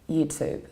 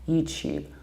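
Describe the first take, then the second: First: The t in tube is plain, like too. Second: The t sounds like ch. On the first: "So we simply pronounce to" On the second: "palatalize it"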